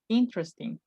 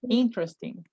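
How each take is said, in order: First: The middle e sound is silent. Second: The same.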